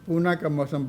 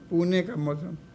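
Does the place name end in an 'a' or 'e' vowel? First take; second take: a vowel; e vowel. First: The place name ends with an a vowel. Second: The place name ends with an e vowel. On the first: The speaker calls it wrong. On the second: The speaker calls it right.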